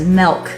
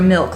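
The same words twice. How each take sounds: First: The vowel sounds like 'eh', as in melk. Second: The vowel sounds like 'ih', as in milk. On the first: This is how someone from New Jersey says it. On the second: This is how the speaker herself says it.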